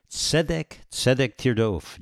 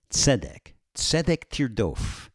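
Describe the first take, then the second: First: Tzedek said twice, then tirdof; repeated phrase. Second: Tzedek tirdof said slowly, falling; slow solemn repeat. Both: Shown as a demonstration. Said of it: "the repetition of a word means it has additional importance".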